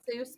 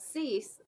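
First: The vowel sounds like the one in 'Seuss'. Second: The vowel sounds like the one in 'cease'. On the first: This is the easier pronunciation most people use. "we go by Seuss because it's really not worth the effort" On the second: This is the family's original pronunciation. "It's pronounced Cease"

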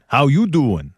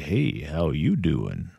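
First: It is said in a Joey-like voice. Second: It is said with a Western drawl.

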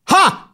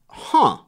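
First: It sounds like a sharp, loud exclamation. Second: It sounds puzzled and quiet.

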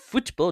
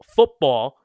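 First: The T in the middle is strongly pronounced. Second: The T in the middle is soft and light. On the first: "I emphasize the T in football. And I say it like, pretentious" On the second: "instead of saying football"

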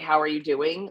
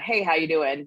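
First: It sounds like a sincere, caring question. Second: It sounds like a quick casual greeting.

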